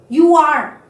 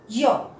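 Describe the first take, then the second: First: Both words are said fully and separately. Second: The words are joined into one short syllable. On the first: The speaker calls it wrong. "No, wrong" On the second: The speaker calls it right. "So it pronounce like your"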